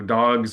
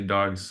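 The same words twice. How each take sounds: First: The word ends with a z sound. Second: The word ends with an s sound. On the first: The speaker calls it right. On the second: The speaker calls it wrong.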